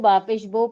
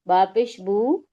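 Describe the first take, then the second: First: The final syllable ends in an 'o' vowel. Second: The final syllable ends in an 'oo' vowel. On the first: This is the older way, used before knowing better. The speaker calls it wrong. "पहले मजहूल पढ़ते थे" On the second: This is the standard way, used now. The speaker calls it right. "अब हमको मालूम हो गया"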